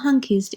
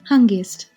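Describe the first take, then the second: First: The middle consonant sounds like a k. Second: The middle consonant sounds like a g. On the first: This is the Western Armenian form. "in Western Armenian" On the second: This is the Eastern Armenian form. "in Eastern Armenian"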